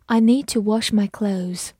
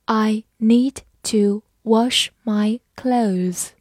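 First: Said in the usual way. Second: Slow, word-by-word reading. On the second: Shown as a demonstration. Teacher reading slowly for students to follow. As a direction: read it slowly for the learners. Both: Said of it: "好，慢慢来读。".

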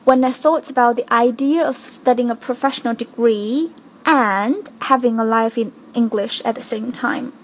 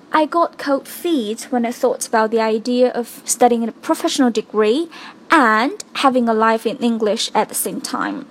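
First: "and" stressed and rising. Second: "and" hit firmly; stress on and. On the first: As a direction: weigh down "and" to show the difficulty. (重读and，语调上扬) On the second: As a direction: lean on "and" to show the strain. (重读and) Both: Shown as a demonstration. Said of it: "在这儿我重读and".

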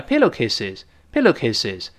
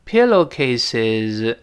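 First: "pillowcases" quick, final sound nearly an s; read quickly. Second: "pillowcases" stretched, final z clearly voiced; very slow. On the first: Teacher shows the z vanishing at speed, quick "pillowcases". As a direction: say "pillowcases" fast, ending barely voiced. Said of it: "读快了". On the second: Teacher makes the voiced ending audible, very slow "pillowcases". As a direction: draw out every syllable of "pillowcases". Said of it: "但读得很慢的时候". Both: Shown as a demonstration.

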